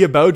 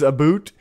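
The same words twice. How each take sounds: First: Said in the usual way. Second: "a boot" with a long oo for about; Canadian "aboot". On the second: Shown as a demonstration. Streamer answering chat on his Canadian accent, "a boot" with oo. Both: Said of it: "The whole about a boot thing".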